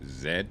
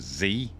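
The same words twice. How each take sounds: First: The letter is said the non-American way. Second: The letter is said the American way.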